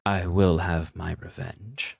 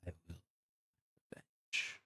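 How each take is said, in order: First: Slow, deliberate repeat of a threat; whispered threat, voiced. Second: Barely audible, eerie whisper; light whisper. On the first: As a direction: spell out the threat slowly and audibly. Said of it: "hear the light whisper". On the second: Acted. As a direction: whisper it from far away in the night. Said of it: "you would just hear the light whisper".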